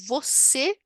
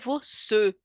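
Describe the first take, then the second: First: The first vowel is a full Portuguese o. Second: The first vowel is a reduced schwa. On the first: The speaker calls it right. "Quando nós dizemos você" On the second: The speaker calls it wrong. "não é você, né? ... a gente não fala isso"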